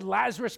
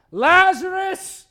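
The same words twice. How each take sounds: First: Said in the usual way. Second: Loud, high, drawn-out summons; commanding call. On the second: Acted. Preacher plays Jesus calling into the tomb, commanding call. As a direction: call the name out long and strong.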